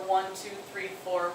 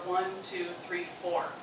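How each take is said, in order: The two takes are said the same way.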